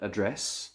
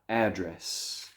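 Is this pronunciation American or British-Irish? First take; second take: British-Irish; American. First: It is said the British and Irish way. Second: It is said the American way. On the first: "In the U K and Ireland" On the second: "In America"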